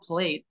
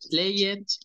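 First: The ending adds no syllable, vowel is silent. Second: The ending is said as an extra syllable. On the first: The speaker calls it right. "Las E son mudas" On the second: The speaker calls it wrong. "No se dice play it"

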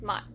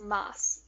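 First: The word ends cut off in a T sound. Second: The word ends in a continuing S sound. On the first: The speaker calls it right. "they just like cut it off, so it's mat" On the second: The speaker calls it wrong. "but it's not pronounced mas"

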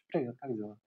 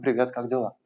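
First: The greeting is said smoothly and fluidly. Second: The greeting is said in an agitated, surging way. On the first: The surrounding space feels like water. "А теперь пространство сделано из воды. Тогда вы можете это сделать совершенно иначе" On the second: The surrounding space feels like restless currents. "пространство сделано из потоков воды, которые тревожны"

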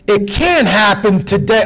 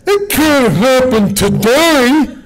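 First: It is said as a plain quote. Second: It mockingly imitates these people's inflection.

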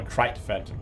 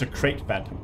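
First: The first word rhymes with 'fight'. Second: The first word rhymes with 'late'. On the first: The speaker calls it wrong. "not a crite phantom" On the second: The speaker calls it right. "I'm pretty sure it's a crate phantom"

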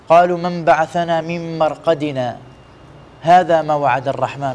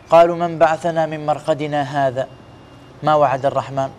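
First: The pause falls right after 'marqadina'. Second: The pause falls right after 'hadha'. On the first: This is what the Merciful promised. The speaker calls it right. "على أساس كذا جاءت السكتة في القرآن الكريم" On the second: The Merciful did not promise. The speaker calls it wrong. "ما يصير تقول ... يعني كأنك تقول الله ما وعد"

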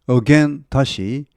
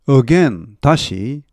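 No difference in how they are said.

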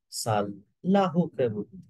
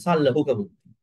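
First: The L is held as a double consonant. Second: The L is short and single. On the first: The speaker calls it right. "Correct way is" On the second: The speaker calls it wrong. "a lot of people say like this"

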